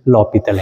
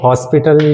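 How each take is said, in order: First: It begins with 'lo', with an l sound. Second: It begins with 'hos', with an s sound. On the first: The speaker calls it right. "इसका correct pronunciation लॉपिटल है" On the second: The speaker calls it wrong. "कई students इसको हॉस्पिटल या फिर हॉपिटल इस तरीके का बोलते हैं"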